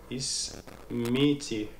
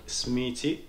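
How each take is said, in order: First: Slow, drawn-out Ismiti with a long final i; careful teacher's model of Ismiti. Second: Smiti said slowly without the first i, Moroccan style. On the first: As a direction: say Ismiti slowly, stretching the last i. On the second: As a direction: clip Ismiti down to Smiti, slowly. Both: Shown as a demonstration. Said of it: "entre Marocains on dit Smiti".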